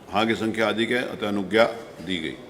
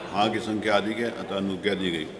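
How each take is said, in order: No difference in how they are said.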